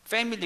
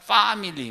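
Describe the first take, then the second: First: It is said in a plain standard accent. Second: It is said in a Filipino English accent.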